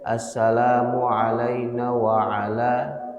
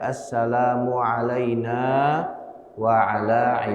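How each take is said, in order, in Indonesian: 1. Vokal pada na pendek. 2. Vokal pada na dibaca panjang. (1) "dibaca pendek" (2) "harusnya na-nya itu dibaca panjang"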